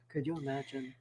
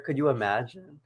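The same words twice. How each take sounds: First: Whispered. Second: Said in the usual way. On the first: Shown as a demonstration.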